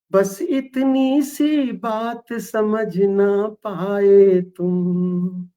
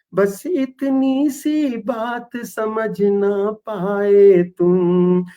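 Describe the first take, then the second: Both takes have the same delivery.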